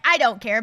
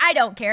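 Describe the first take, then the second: First: It sounds resentful and spiteful. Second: The same.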